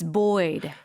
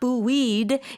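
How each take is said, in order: First: It is said as one syllable, like 'boyd'. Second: It is said with two syllables, like 'boo-eed'. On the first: The speaker calls it right. "it's buoyed" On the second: The speaker calls it wrong. "It's not buoyed"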